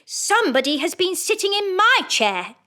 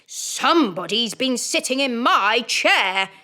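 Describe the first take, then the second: First: It is said in a middle-sized voice. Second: It is said in a rough, gruff voice.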